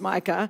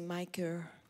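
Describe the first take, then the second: First: It is said in an Australian accent. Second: It is said in a non-Australian accent. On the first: This is how the speaker's home country says it. "I'm going to teach you Australian, ... but it's Micah" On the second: This is how the listeners say it. "you say Micah"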